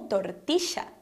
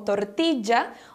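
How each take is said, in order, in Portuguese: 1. O duplo L soa como sh. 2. O duplo L soa como um j. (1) "o som do S H ... nessa região seria pronunciada como" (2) "ou de J"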